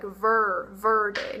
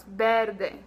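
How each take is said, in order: First: Verde with an English er, VER-day; mock English verde; wrong English vowel. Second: Verde slow, with a crisp E and the final E sounded; slow correct verde; correct Spanish verde. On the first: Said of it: "we don't have any E sounds like uh". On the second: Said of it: "No, it's verde". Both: Shown as a demonstration.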